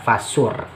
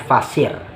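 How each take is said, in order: First: The vowel after the S sounds like 'u'. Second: The vowel after the S sounds like 'i'. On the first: Draw the birds close and tame them. "membaca bidhammiha fasur" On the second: Cut the birds into pieces. "bikasri shadi, dengan kasrah huruf shad"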